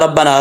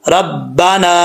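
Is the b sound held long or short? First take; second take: short; long. First: The b sound is short, not doubled. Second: The b sound is doubled across syllables. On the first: The speaker calls it wrong. "इसको ऐसे नहीं पढ़ना" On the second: The speaker calls it right. "रब, बा जबर बा, रब्बा"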